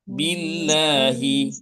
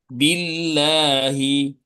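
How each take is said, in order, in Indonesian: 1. Bunyi L-nya tipis dan ringan. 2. Bunyi L-nya tipis dan ringan.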